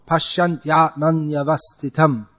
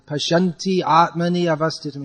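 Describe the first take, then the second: First: The words run together with no breaks. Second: The words are separated with extra syllables. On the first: The speaker calls it right. "it's supposed to be said as one flow" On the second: The speaker calls it wrong. "you add two extra uh, matras"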